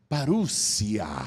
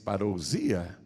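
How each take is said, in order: First: It is pronounced in the original Greek way. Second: It is pronounced as the Portuguese spelling reads. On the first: The speaker calls it right. "mas a pronúncia é parúcia" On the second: The speaker calls it wrong. "a gente lê em português parousia"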